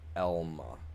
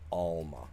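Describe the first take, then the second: First: The name begins with an 'eh' sound. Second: The name begins with an 'ah' sound. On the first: The speaker calls it right. "it's pronounced Elma" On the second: The speaker calls it wrong. "not Alma"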